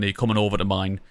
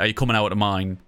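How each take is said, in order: First: The word 'over' is said with a clear 'v' sound. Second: The word 'over' is said without a 'v' sound, like 'ower'. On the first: "Rather than" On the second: "In the northeast, if you were using really heavy slang"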